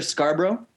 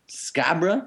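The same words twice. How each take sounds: First: Said in the usual way. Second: "Scarborough" squashed to "SKAB-ruh"; local pronunciation. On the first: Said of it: "you see that word he brought up there". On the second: Shown as a demonstration. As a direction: say "Scarborough" as a local, dropping the first r. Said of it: "That's where I'm from, homie".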